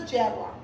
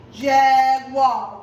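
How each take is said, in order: First: Said in the usual way. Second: "jaguar" loud in two even beats, jag-uar; louder, stretched halves of "jaguar"; clapped-out syllables. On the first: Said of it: "We're gonna circle the jaguar". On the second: Shown as a demonstration. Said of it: "How many syllables do you hear".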